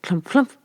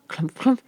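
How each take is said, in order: Both takes have the same delivery.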